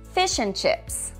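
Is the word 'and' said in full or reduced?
reduced. The word 'and' is reduced and unstressed.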